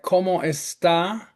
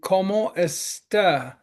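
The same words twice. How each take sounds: First: The final vowel is a clear, open 'ah'. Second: The final vowel is reduced to a schwa. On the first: The speaker calls it right. "If we put stress on that final A, like" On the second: The speaker calls it wrong. "the schwa would be"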